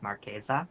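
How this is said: The name is said with Italian sounds. This is the original pronunciation of the name. "the actual pronunciation of the name in Italian"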